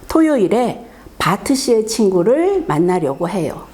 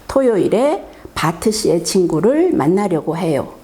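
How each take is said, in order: No difference in how they are said.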